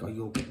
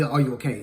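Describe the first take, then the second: First: Said in the usual way. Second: Overly concerned. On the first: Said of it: "try to be nice and be like". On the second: Shown as a demonstration. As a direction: exaggerate "Are you okay?" as if fussing over someone. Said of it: "it never gave that".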